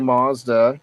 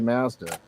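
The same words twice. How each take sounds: First: It is said with an American pronunciation. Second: It is said with a Canadian pronunciation. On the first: "We say Mazda" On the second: "you say Mazda"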